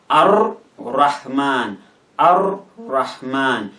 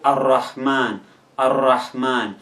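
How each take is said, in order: First: "Ar-Rahman" slowly broken into Ar, then Rahman; R split in two. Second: "Ar-Rahman" slowly, joined up with a doubled R; slow, connected "Ar-Rahman", R held double. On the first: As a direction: pause between the two R's of "Ar-Rahman". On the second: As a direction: run Ar into Rahman in "Ar-Rahman" without a break. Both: Shown as a demonstration. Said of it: "pronounced as if it is two".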